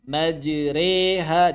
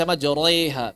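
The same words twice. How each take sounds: First: Slow MAJREHA with a thin r and long "eh"; correct imalah. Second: "majreha" with a heavy r, like "majoreha"; wrongly thick r. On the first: Teacher models the imalah, thin r. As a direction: stretch "Majreha", light r tilted into "ay". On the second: Teacher shows how not to read it, thick r. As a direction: darken the r in "majreha", as a mistake. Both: Shown as a demonstration. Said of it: "Jangan dibaca majreha".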